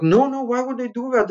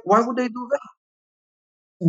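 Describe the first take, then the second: First: Said in the usual way. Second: Sarcastic slow repeat of the lawyer; slow mocking echo. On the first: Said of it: "He was like". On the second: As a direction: drag the words out, much higher, mocking. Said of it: "And I was like".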